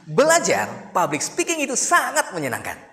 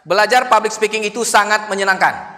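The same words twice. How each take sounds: First: It is said with a varied, rhythmic melody. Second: It is said in a flat, level tone. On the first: The speaker calls it right. "Lebih enak, lebih berirama" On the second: The speaker calls it wrong. "kan datar"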